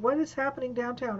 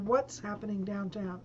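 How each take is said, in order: First: The words what is are said separately. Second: The words what is are contracted together.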